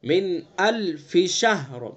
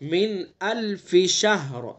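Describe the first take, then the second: First: The f and sh sounds are kept separate. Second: The f and sh sounds are kept separate.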